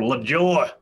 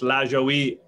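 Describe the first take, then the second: First: La Joie said "luh-JOR". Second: La Joie said "LAZH-oh-wee"; less Americanized pronunciation. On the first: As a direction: say La Joie in two syllables, hard j, ending like "jor". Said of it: "stick with the Americanized version". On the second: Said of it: "a little bit less La Joie". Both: Shown as a demonstration.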